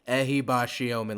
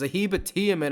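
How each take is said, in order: First: The name has a sh sound in the middle. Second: The name has a t sound in the middle. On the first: The speaker calls it right. "Let's get it right" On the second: The speaker calls it wrong. "is what I was saying"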